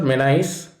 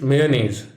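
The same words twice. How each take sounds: First: "mayonnaise" as MAN-aze; "mayonnaise" squeezed to two syllables; wrong mayonnaise. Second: "mayonnaise" as MAY-oh-naze, slowly; "mayonnaise" in three clear syllables; right mayonnaise. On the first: Teacher showing students the wrong way, "mayonnaise" as MAN-aze. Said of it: "It is not mayonnaise". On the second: Teacher showing students the right way, "mayonnaise" as MAY-oh-naze. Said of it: "with may, a, nays pronunciation". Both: Shown as a demonstration.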